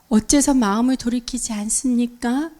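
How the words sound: It is said in a soft, gentle tone. The listener may open their heart. The speaker calls it right. "이렇게 부드럽게 얘기하면 부드러운 억양이면"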